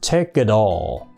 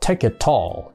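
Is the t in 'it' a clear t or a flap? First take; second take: flap; clear t. First: The words link and the t becomes a flap. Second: The t in it is a clear t. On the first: The speaker calls it right. "Nó đọc thành the nha. Nó đọc lười lười thành the" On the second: The speaker calls it wrong. "Chứ nó không đọc take it all. ... Không đọc thành tờ nha"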